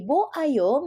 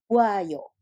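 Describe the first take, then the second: First: The vowels are kept apart as separate syllables. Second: The vowels are sped up and merged together.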